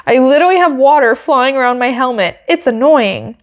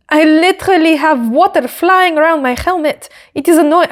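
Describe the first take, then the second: First: Said in the usual way. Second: Higher-pitched, badly faked French accent; attempted French accent. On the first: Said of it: "say it in an American accent". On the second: Quoting driver's water complaint on radio, shaky attempt at French accent. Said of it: "I can't do a French accent".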